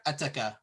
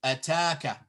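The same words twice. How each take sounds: First: Ataka quick, with a short ta; ataka, nothing lengthened; short vowel. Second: Ataka with the ta held long; long vowel. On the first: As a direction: keep ataka short and softer. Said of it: "If it wasn't there". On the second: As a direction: stretch the middle a of ataka. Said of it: "So we say ataka". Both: Shown as a demonstration.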